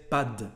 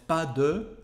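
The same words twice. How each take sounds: First: De reduced to d, pas d'; casual French pas de; dropped e. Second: Said in the usual way. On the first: Shown as a demonstration. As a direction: clip de to d in pas de. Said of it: "we just say pas de". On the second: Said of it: "instead of pas de".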